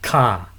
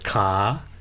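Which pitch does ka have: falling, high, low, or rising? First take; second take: high; rising. First: The pitch stays high throughout. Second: The pitch rises from low to high. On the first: Trade. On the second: Leg.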